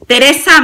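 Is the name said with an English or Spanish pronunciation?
Spanish. The name is said with a Spanish pronunciation. The speaker calls it wrong.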